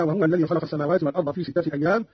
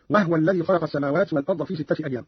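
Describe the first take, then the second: First: Said in the usual way. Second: وهو الذي begun "wahwa lladhi"; no u after the h of وهو, "wahwa"; ha with sukun. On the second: Shown as a demonstration. Teacher shows the second example, وهو as "wahwa". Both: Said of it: "بإسكان الهاء".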